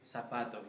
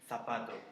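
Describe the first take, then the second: First: The first consonant is an s sound. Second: The first consonant is a th sound. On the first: This is how most people in South and Central America say it. "normally I would say zapato" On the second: This is how people in Spain say it. "instead of zapato"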